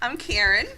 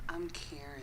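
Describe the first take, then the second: First: It is said in her plain, normal voice. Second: It is said in a deep, sexy voice.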